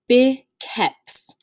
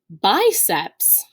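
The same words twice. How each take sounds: First: The C is said like a K. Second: The C is said like an S. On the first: This is the Latin way of saying it. The speaker calls it right. "In Latin, this word is actually pronounced biceps" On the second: This is the English way of saying it. The speaker calls it wrong. "we would typically pronounce biceps"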